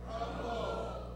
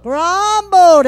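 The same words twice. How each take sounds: First: Whispered. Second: Grumbled called out loud and high. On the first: Pastor leading the church in saying the word, whispered. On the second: Pastor leading the church in saying the word, loud. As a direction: belt out Grumbled. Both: Shown as a demonstration. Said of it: "Everyone say".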